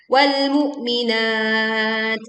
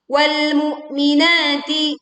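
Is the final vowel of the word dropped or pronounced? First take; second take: dropped; pronounced. First: It stops on the word, dropping the final vowel. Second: It flows on, keeping the final vowel. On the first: The reciter pauses at this word. "kalau kita berwakof maka bisa wal mu'minat" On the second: The reciter continues without pausing. "kalau kita berwasol, wal mu'minati, panjangnya hanya dua harokat"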